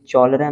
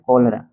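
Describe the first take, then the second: First: The word begins with a 'ch' sound. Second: The word begins with a 'k' sound. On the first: The speaker calls it wrong. "चौलरा नहीं" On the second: The speaker calls it right. "C H से यहाँ पे क हो गया"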